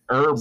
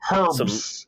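First: The h at the start is silent. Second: The h at the start is pronounced.

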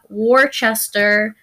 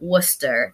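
First: It is said with a non-local pronunciation. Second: It is said with the local pronunciation. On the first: The speaker calls it wrong. "Not Worcester" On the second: The speaker calls it right. "That is how you say that, people"

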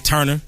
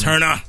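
First: The name ends with an 'er' sound. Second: The name ends with an 'ah' sound. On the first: The speaker calls it wrong. "Don't say Turner" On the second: The speaker calls it right. "it's Turner"

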